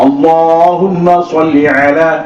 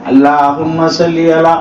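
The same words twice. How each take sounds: First: The L in Allahumma sounds full and heavy. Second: The L in Allahumma sounds thin and light. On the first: The speaker calls it right. "வாய் நிரம்ப சொல்லணும்" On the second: The speaker calls it wrong. "லேசா சொல்லக்கூடாது, லாம மாதிரி சொல்லக்கூடாது"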